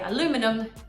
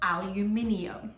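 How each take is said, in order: First: The word is said with four syllables. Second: The word is said with five syllables. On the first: This is the American way of saying it. The speaker calls it wrong. "Americans say aluminum" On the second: This is how the rest of the world says it. The speaker calls it right. "the rest of the world says"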